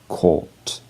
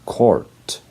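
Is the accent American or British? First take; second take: British; American. First: It has a British accent with no R sound. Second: It has an American accent with the R sounded. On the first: "but in British English, it is court" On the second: "in American English, this word is pronounced court"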